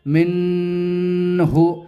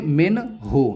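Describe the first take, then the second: First: The n sound is blurred into the next sound. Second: The n sound is pronounced clearly and distinctly. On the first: The speaker calls it wrong. "इसे ऐसा नहीं पढ़ेंगे" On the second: The speaker calls it right. "बल्कि इसे पढ़ेंगे"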